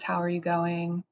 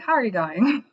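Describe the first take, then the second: First: It is said in a plain American accent. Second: It is said in an imitated Australian accent.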